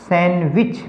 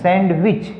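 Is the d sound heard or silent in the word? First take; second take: silent; heard. First: The d sound is left out in the middle. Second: The d sound is pronounced in the middle. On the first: The speaker calls it right. "क्योंकि डी तो silent है" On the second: The speaker calls it wrong. "सैंडविच हम क्या कहते हैं? ... लेकिन सैंडविच नहीं है"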